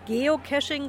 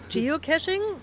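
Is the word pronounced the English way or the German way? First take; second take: German; English. First: The word is pronounced in a German way. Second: The word is pronounced in an English way.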